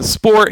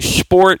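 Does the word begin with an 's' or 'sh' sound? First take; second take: s; sh. First: The word begins with a plain s sound. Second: The word begins with an sh sound. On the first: "instead of saying sport" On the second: "he puts like a like an S H in front of it"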